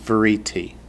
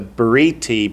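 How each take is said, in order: First: The word begins with a soft v sound. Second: The word begins with a hard b sound. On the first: "when it follows a vowel or vowel sound, it softens" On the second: "Why isn't it briti?"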